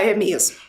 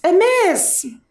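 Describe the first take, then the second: First: The last syllable is dropped or cut short. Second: The last syllable is fully pronounced.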